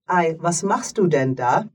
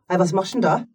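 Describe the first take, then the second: First: The words are said separately and clearly. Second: The words are run together like one word.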